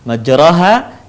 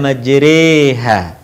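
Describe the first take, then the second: First: The vowel after r is an open a. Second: The vowel after r leans toward e.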